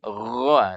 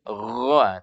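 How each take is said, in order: First: It is thick, with an o-like vowel. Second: The same.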